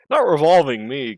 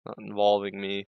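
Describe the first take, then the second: First: "not revolving me" blurted louder and higher, stumbling on "revolving" again; annoyed slip on "revolving"; flustered slip, louder. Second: Said in the usual way. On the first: Shown as a demonstration. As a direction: trip over "revolving" with a frustrated push.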